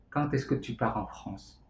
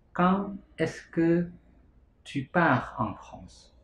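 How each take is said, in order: First: Said in the usual way. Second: "Quand est-ce que tu pars en France?" said word by word, very slowly; slow French drill. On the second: Shown as a demonstration. Teacher slowing the French sentence for students. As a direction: break the question into slow clear pieces.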